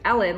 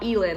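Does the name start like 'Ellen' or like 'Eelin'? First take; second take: Ellen; Eelin. First: The name is said like Ellen DeGeneres's. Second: The name is said like Tiger Woods' ex-wife's. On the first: The speaker calls it right. "but Ellen, like DeGeneres" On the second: The speaker calls it wrong. "not Elin, like I thought, like Tiger Woods' ex-wife"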